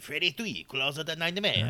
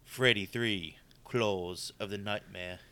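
First: It is said in a put-on French accent. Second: It is said in his plain accent.

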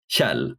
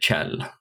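First: It begins with a sound not found in English. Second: It begins with an English 'ch' sound. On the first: This is how the speaker personally says it. "I would say Chell, but that sound doesn't exist in English" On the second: This is how some people from that dialect area say it. "pronounce the KJ as you would in English pronounce a TCH"

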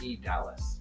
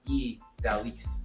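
First: The second part sounds like the word Dallas. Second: The second part sounds like Dalis, not Dallas. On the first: The speaker calls it wrong. "But I kept thinking it was E. Dallas" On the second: The speaker calls it right. "And she was like, it's E. Dalis"

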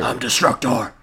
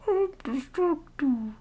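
First: It is said at a lower pitch. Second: It is said at a much higher pitch.

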